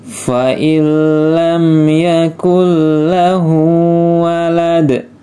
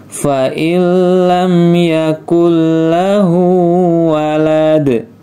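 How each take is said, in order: No difference in how they are said.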